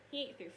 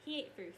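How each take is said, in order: Both takes have the same delivery.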